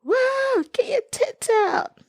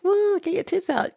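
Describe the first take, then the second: First: High, far-off rowdy mock cheer. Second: High rowdy mock cheer. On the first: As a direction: hoot it like a crowd at a pub. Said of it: "You just like". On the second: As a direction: yell it like a drunk fan. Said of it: "it's like the expression people say".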